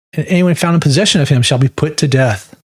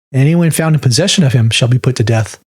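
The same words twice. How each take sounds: No difference in how they are said.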